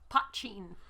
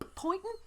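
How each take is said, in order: First: It is said like 'pah-cheen'. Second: It is said like the English word 'pointing'. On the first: The speaker calls it right. "how to pronounce this" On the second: The speaker calls it wrong. "the first time I asked them"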